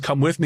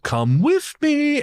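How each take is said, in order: First: It is said in a plain, normal voice. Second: It is said in a put-on influencer voice.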